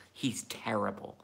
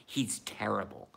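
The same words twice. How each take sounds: The two takes are said the same way.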